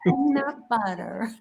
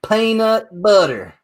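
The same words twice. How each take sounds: First: Low, soft, slow try at American PEANUT BUTTER; hesitant American accent imitation; attempted American accent. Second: Slow, higher, clear American PEANUT BUTTER; teacher-style American accent, drawn out; American accent demo. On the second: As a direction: model American PEANUT BUTTER slowly for a learner. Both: Shown as a demonstration. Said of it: "Repeat after me".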